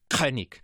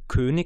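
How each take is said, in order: First: The word starts with a rasping kch sound. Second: The word starts with a plain k sound. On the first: "sagt man in der Schweiz halt ein KCH" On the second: "Wo wir König im Hochdeutschen sagen"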